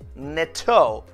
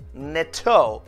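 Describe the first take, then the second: First: It is said as a single word. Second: It is said as a single word.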